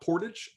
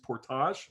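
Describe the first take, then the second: First: The word is said the non-Canadian way. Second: The word is said the Canadian way. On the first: The speaker calls it wrong. "it is not portage" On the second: The speaker calls it right. "And in Canada, it is portage"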